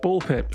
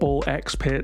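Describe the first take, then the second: First: The middle letter is left silent. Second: The middle letter is said as ex. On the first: "apparently it's just Ball Pit" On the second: "you'll be hearing a lot of"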